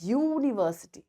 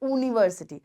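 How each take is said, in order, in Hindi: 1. यह y ध्वनि से शुरू होता है। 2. यह सादे स्वर ध्वनि से शुरू होता है। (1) "we say university, right? ... there is a slight tone of y" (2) "We don't say university"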